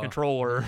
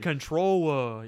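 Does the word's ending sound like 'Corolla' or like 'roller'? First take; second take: roller; Corolla. First: The ending sounds like 'roller', the usual ending. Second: The ending sounds like 'Corolla', rhyming with Motorola. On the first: It does not rhyme with the earlier lines. The speaker calls it wrong. "not controller" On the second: It rhymes with the earlier lines. The speaker calls it right. "You should have said controller"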